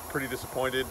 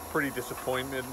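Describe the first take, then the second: No difference in how they are said.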